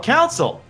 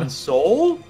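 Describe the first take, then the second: First: The word sounds like council. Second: The word sounds like console. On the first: "the accent around here" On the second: "You mean console?"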